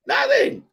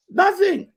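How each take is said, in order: First: Even higher squeal of disbelief; incredulous. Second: Squeaky high exasperated nothing; nothing, in a high strangled squeal; incredulous. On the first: Repeating his answer about the kid, climbing higher in disbelief. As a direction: push it up into a strangled squeak. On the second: Co-host recapping Jericho's fluke win, pitched up in disbelief. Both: Real, not acted.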